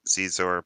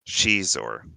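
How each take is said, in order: First: The name begins with a z sound. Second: The name begins with a sh sound. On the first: "Going back to the Zizor pronunciation" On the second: "it's pronounced Shizor. Like the female she"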